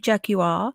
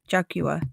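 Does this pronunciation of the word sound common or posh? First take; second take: posh; common. First: The word is said in a posh way. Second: The word is said in a common way. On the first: The speaker belongs to a higher social class. "posh people say Jaguar" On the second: The speaker belongs to an ordinary social class. "I say Jag Jaguar because that's because I'm common"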